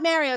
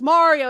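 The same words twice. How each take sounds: First: The first vowel is short, with Canadian vowels. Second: The first vowel is long and drawn out. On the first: The speaker calls it wrong. "my vowels are Canadian" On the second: The speaker calls it right. "I have to draw out the fucking Mario"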